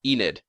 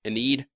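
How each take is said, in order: First: Enid said EE-nid; long ee first, short second syllable in Enid; pronunciation attempt. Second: Enid said uh-NEED; long ee in the second syllable of Enid; alternative pronunciation. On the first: Vlogger unsure of a character's name, Enid as EE-nid. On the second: Vlogger testing a character's name, Enid as uh-NEED. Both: Shown as a demonstration. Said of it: "I don't know how to pronounce it".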